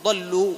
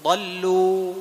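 First: ضلوا with the waw stopped short and abruptly; wrong cut-off madd. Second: ضلوا with the waw held for two counts and left to fade; correct madd ending. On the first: Teacher shows the mistake, ضلوا cut off sharply. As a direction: chop the final waw of ضلوا off. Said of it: "ما تقول ضلوا". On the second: Teacher models ضلوا with its waw fading out on its own. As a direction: let the waw of ضلوا die away naturally. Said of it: "تنتهي بنفسها". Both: Shown as a demonstration.

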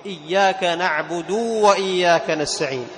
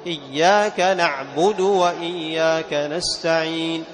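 First: نعبد with the final u stretched into a long uu; faulty recitation, نعبد ending in long uu; wrong over-lengthened vowel. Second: نعبد with a short final u; slow recitation, keeping the u of نعبد short; correct measured recitation. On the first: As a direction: recite slowly, dragging the u of نعبد into a waw. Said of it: "لأن هنا الدال مضمومة فقط، فإشباعها يجعلها إيش؟". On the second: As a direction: hold the long ending of نستعين, not نعبد. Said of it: "لأن هنا الدال مضمومة فقط". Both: Shown as a demonstration.

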